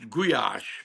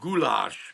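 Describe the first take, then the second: First: The middle has a y sound, no l. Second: The middle has a clear l sound. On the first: This is the Hungarian pronunciation. "In Hungarian, it's it's pronounced guyash" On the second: This is the American pronunciation. "in America they pronounce it goulash"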